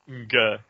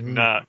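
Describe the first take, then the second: First: The syllable starts with a hard g-like sound. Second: The syllable starts with a soft nasal sound. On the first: The speaker calls it wrong. "you don't say Nga" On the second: The speaker calls it right. "It's like Na, like Nani"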